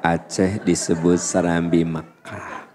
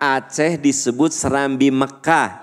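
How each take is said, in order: First: It is said in a soft, quiet voice. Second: It is said in a loud, projecting voice. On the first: The listeners cannot hear it. The speaker calls it wrong. "Bu nggak kedengaran" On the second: The listeners can hear it. The speaker calls it right. "suara kita tuh kudu lantang"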